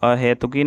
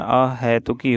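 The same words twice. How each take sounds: First: अहेतुकी with "he"; narrow e vowel. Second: अहेतुकी said slowly with "hai"; wide ai vowel. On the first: Teacher showing the mistake, अहेतुकी with plain e. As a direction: say अहेतुकी as a-he-tuki. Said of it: "अहेतुकी नहीं होता". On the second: Teacher correcting the word, slow अहेतुकी with open ai. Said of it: "ह पे ए की मात्रा". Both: Shown as a demonstration.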